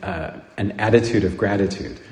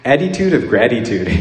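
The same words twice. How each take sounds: First: Said in the usual way. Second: Put-on Philly accent. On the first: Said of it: "he was talking about". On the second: Imitating a Philadelphia priest's accent. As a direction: do the Philadelphia priest's "attitude of gratitude". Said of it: "the way we heard it".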